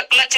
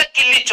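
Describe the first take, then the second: First: Said in the usual way. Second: किलिच as "ki-lich", vowels pushed into the cluster; local pronunciation. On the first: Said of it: "bike का क्लच नहीं होता". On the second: Shown as a demonstration. Teacher jokes how his hometown says clutch, ki-lich. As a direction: stress the word किलिच, ki-lich. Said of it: "किलिच होता है".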